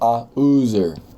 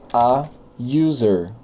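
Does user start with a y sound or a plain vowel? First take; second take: plain vowel; y sound. First: User begins with a plain vowel. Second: User begins with a y sound. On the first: The speaker calls it wrong. "eu não falo a user" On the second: The speaker calls it right. "Lembra que eu tenho um som de Y aqui na frente"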